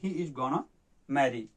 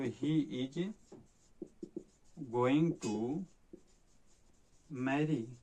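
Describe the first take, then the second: First: 'Going to' is shortened to 'gonna'. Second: 'Going to' is said as two full words. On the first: "short form में गोना" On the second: "गोइंग टू का"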